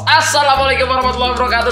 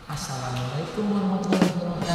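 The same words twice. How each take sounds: First: It is said in his normal voice. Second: It is said in a soft, gentle voice.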